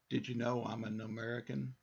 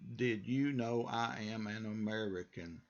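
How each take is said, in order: First: The words are reduced and run together. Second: Each word is said fully and separately. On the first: This is how people actually speak. "now listen to me say this in conversation" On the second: This is how it is written in a book. "how you would read it in a book"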